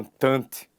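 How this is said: It is said with French-style sounds. The speaker calls it right.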